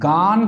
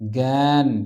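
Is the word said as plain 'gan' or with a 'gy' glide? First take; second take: plain gan; gy glide. First: It is said as plain gan, without a glide. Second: It is said with a nasal gy glide. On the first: The speaker calls it wrong. "এটাকে আমরা গান কিন্তু বলি না" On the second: The speaker calls it right. "এটাকে আমরা বলি জ্ঞান"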